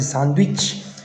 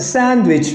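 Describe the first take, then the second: First: It is said with French pronunciation. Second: It is said with English pronunciation. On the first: "But you're gonna pronounce it sandwich" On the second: "that's a sandwich, right?"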